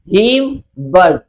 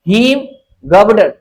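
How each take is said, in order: First: The middle syllable is left out. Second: The middle syllable is fully pronounced. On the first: "गौ का बीच में क्या करेंगे silent" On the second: "उच्चारण फिर से करिए"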